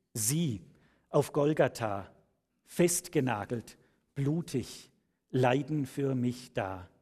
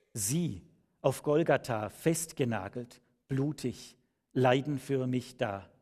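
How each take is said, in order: No difference in how they are said.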